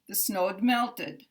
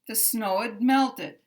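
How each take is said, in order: First: The contraction is a bare d sound. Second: The contraction is a bare d sound.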